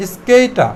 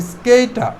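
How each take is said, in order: Both takes have the same delivery.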